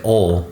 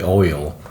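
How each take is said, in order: First: The word is clipped very short, almost one beat. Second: The word is stretched out over several beats. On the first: "like it's like a half a syllable" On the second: "like it's a five syllable word"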